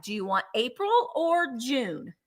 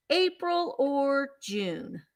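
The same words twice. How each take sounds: First: Said in the usual way. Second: "April or June?" said slowly, drawn out and separated; slow repeat. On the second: Real, not acted. Seller repeating the choice to the buyer, slow and drawn out. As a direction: stretch each word to make the buyer decide.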